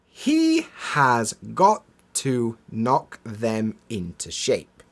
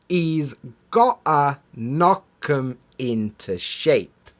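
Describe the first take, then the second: First: Each word is pronounced separately and in full. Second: The words are squeezed together with reduced sounds. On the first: "I'll say it as it's written" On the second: "as we would naturally pronounce it"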